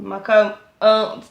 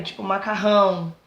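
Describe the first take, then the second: First: "macarrão" cut short to "maca", slow and drawn out; dropped syllables. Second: Said in the usual way. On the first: Shown as a demonstration. Showing teachers how a dyslexic child eats syllables, slowly. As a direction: say "macarrão" swallowing its last syllable, dragging the first ones. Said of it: "que ele come sílabas". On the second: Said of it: "ele escreve ário".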